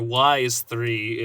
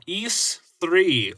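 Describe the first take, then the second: First: The first word sounds like 'wise'. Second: The first word does not sound like 'wise'.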